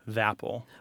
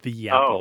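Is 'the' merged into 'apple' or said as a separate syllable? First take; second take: merged; separate. First: The vowel of 'the' is dropped, merging into 'apple'. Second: The word 'the' is a separate syllable. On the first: "we will drop the schwa and put that unvoiced TH, kind of alight it with the following word" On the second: "Instead of the apple"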